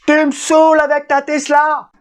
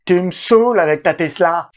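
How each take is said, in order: First: High shouted exasperation; shrill angry wife. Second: Exasperated wife, mock complaint; hammed-up fed-up wife; imitating annoyed wife. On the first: Retold or imitated. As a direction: yell it, fed up. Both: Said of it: "je l'imite pas très bien".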